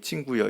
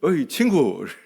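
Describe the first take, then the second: First: It is said in a soft, gentle tone. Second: It is said in a threatening, gangster-like tone.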